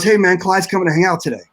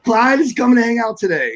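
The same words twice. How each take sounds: First: Said in the usual way. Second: Pitched up high, amazed at the news; stunned disbelief. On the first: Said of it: "he goes". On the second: Retold or imitated. Young drummer hearing his hero is coming, high amazed echo. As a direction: echo it back like you can't believe it. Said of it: "And I'm like".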